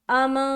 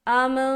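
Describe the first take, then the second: The two takes are said the same way.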